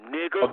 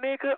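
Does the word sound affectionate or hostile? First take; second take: hostile; affectionate. First: The word is said angrily and with contempt. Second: The word is said warmly and affectionately. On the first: It is an insult. "It's full of venom" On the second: It is a friendly greeting. "there is a love in it"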